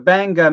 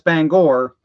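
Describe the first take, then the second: First: The R sound is dropped. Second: The R sound is pronounced. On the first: "you tend to drop any R that's after an A" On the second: "even though it's Bangor"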